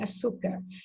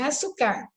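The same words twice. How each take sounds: First: The stress falls on the second-to-last syllable. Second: The stress falls on the last syllable. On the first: The speaker calls it right. "é açúcar" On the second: The speaker calls it wrong. "porque não é açúcar"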